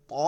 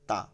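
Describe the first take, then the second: First: ত said full and thick. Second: তা said thin. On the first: Teacher contrasting two letters, thick ত. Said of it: "এটা মোটা হয় ত". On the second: Teacher contrasting two letters, thin তা. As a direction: keep the t light in ta. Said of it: "চিকন, তা হয়". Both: Shown as a demonstration.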